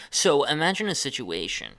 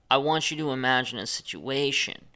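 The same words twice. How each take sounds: First: Imagine hit, the rest falling; stress on imagine. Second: Want pushed out, imagine left light; stress on want. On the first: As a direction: lean on the word imagine, then drop. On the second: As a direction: press on want, let imagine ride. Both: Shown as a demonstration. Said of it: "when you chop your sentences up like this".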